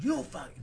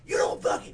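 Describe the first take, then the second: First: Restrained mock argument, held in; retold swearing match, still held back; retold angry cursing. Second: Mock rough yell, louder comeback; imitated angry stranger, raising the volume; retold escalating anger. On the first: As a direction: curse him out without yelling yet. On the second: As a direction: bring it up a notch, cursing back. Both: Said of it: "He brings it up".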